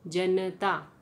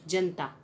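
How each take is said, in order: First: The middle 'a' vowel is fully pronounced. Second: The middle 'a' vowel is dropped. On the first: "उच्चारण क्या होना चाहिए था" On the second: "लोप करके हम कैसा उच्चारण कर रहे हैं"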